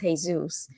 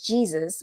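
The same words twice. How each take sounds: First: The name has a Spanish pronunciation. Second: The name has an English pronunciation. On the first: The speaker calls it right. "clearly it's" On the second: The speaker calls it wrong. "English speaking people says"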